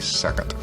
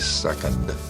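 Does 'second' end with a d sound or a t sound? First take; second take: t sound; d sound. First: It is Southern, ending like a t. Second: It ends with a plain d sound.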